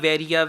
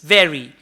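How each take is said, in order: First: It is said with a Punjabi-style pronunciation. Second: It is said with a standard English pronunciation. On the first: The speaker calls it wrong. "Not Punjabi varia way" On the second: The speaker calls it right. "It's vary"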